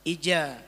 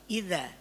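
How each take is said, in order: First: The middle consonant is a 'j' sound. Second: The middle consonant is a 'z' sound. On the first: The speaker calls it wrong. "ada orang yang baca memang jim semuanya" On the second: The speaker calls it right. "Malah di awalnya bukan jim malah"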